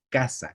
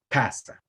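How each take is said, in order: First: The k sound has no extra puff of air. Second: The k sound has a strong puff of air. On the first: This is the coastal and most common pronunciation. "en la costa y en la mayoría de países, la letra K o el sonido K se pronuncia así" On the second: This is heard in some jungle and highland regions. "es como que tiene más airecito, como que la respiras más"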